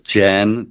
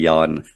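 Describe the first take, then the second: First: The name begins with a J sound. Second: The name begins with a Y sound. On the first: This is the usual American way to say it. "that would be the way an American would normally pronounce it" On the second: This is closer to the Afrikaans way to say it. "more closely to the Afrikaans, just change it to a Y"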